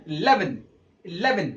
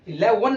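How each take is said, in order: First: "इलेवन" with a tiny opening i, low falling end; barely touch the first vowel of "इलेवन", i-LEH-vun; very short first E. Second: "इलेवन" louder, with a W-like ending, i-le-wun; wrong pronunciation of eleven. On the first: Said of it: "छोटा, बिल्कुल छोटा ई". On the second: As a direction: say "इलेवन" as the mistake, with W for V. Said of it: "इलेवन नहीं". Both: Shown as a demonstration.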